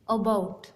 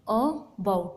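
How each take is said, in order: First: Said in the usual way. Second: "about" split in two, a pause after the first vowel; syllable by syllable. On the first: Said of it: "phonetic transcription देखो". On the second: Shown as a demonstration. Teacher shows students the vowel sounds in a word, "about" broken into syllables. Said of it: "vowel sound कितनी बार आ रही है".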